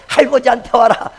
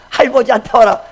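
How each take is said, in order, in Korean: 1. 가운데 음절을 빼고 말해요. 아기 말투 같아요. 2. 가운데 음절을 빼고 말해요. 아기 말투 같아요.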